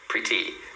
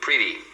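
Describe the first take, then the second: First: The middle t is clearly pronounced. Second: The middle t sounds like a quick r. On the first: "os britânicos pronunciam mais assim" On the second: "no sotaque americano, você vai sempre ouvir"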